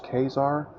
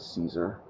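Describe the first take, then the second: First: The name begins with a hard K sound. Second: The name begins with a soft S sound. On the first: It follows the original Roman pronunciation. "some people would much prefer it pronounced Kazar" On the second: It follows the usual English pronunciation. "I pronounce it Caesar"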